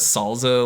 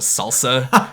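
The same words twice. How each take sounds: First: The middle consonant is a buzzing z sound. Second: The middle consonant is a hissing s sound. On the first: The speaker calls it wrong. "like with a Z" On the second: The speaker calls it right. "instead of salsa"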